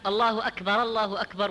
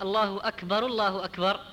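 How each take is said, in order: First: First أكبر linked with an "a": akbara-llahu akbar; أكبر ending in -ara into the next الله; mistaken linking vowel. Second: First أكبر linked with a "u": akbaru-llahu akbar; أكبر ending in -aru into the next الله; correct linking vowel. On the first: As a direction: join the two الله أكبر with a fatha on the first ر. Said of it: "من الأخطاء أيضًا". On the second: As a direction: join the two الله أكبر with a damma on the first ر. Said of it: "والصحيح". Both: Shown as a demonstration.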